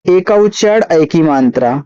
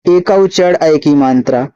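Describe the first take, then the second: No difference in how they are said.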